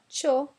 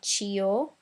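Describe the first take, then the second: First: The i is silent, giving one syllable. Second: The i is sounded as a separate syllable. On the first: The speaker calls it right. "but Cho" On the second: The speaker calls it wrong. "It's not Chio"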